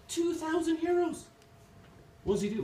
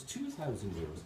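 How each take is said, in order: First: Very high squeak of mock shock; incredulous customer. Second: Said in the usual way. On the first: Irish customer balking at the second parrot's price, incredulous. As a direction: shoot the pitch right up in disbelief.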